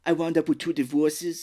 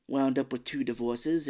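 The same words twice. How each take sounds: First: Louder, higher mock Austrian accent; Arnold Schwarzenegger. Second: Said in the usual way. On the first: Co-host replaying the aunt's line, mock Austrian accent. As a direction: lean into a comic Austrian accent. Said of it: "that's how I'm gonna do that". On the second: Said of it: "I'm starting to sound like Arnold Schwarzenegger".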